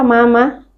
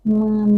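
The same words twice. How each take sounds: First: It is said lightly without extra nasal sound. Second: It is said with a slight hum through the nose. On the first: "mim kalau Indonesia mama ... mama tidak dari sini" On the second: "makhraj kita masukkan sedikit menjadi mama ... Rasa ada dengung"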